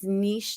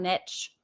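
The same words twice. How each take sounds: First: The word is said with a long ee vowel. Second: The word is said without a long ee vowel. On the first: The speaker calls it right. "It's niche, ... like N E E S H" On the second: The speaker calls it wrong. "not niche ... it's just gonna be wrong"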